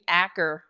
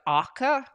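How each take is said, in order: First: It is said with an American pronunciation. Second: It is said with a Norwegian pronunciation.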